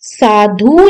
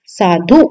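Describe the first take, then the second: First: साधु with a long oo ending; wrong long u. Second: साधु with a short u ending; correct short u. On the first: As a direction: drag the last vowel of साधु. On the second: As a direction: cut the last vowel of साधु short. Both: Shown as a demonstration. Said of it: "साधु नहीं".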